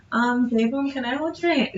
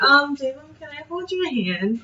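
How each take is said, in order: First: Higher, timid, giggly ask; shy request. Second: Shy request. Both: Retold or imitated. Fan asks idol to hold hands, shy and high. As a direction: ask shyly, barely daring. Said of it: "I'm not imitating the whole day".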